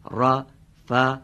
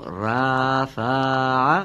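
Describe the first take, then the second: First: رفع with its short vowel kept short; رفع said crisp and short. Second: رفع with the short vowel stretched; رفع dragged out long; drawn-out vowel. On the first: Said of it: "به این شکل". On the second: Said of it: "غلطه". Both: Shown as a demonstration.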